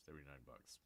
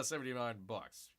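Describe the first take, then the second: First: Low, very soft mutter of "Seventy-nine bucks"; muttered sticker shock. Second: Said in the usual way. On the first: Real, not acted. Price-shocked viewer muttering to himself, low and soft.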